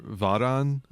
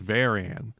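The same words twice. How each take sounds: First: The name is said the original Japanese way. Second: The name is said the English way. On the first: This is the original pronunciation. "I guess would be more accurate" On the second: This is how it is called in America. "in America, we call it"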